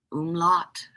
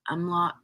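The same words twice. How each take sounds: First: "umlaut" as OOM-lot; tentative "umlaut", first vowel as in "boom"; trying a pronunciation. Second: "umlaut" as UM-lot; tentative "umlaut", first vowel as in "sum"; trying another pronunciation. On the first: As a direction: say "umlaut" with an oo at the start. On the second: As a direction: say "umlaut" with an uh at the start. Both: Shown as a demonstration. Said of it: "I don't know how to say that".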